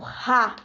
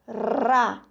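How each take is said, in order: First: The r sound is strong and harsh. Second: The r sound is soft and light. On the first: "esse som ele é forte" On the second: "é um som mais brando"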